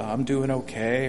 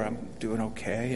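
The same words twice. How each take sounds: First: Said in the usual way. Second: Subdued tone. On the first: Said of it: "the same thing when you raise your voice". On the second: Shown as a demonstration. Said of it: "people can pick up from the tone".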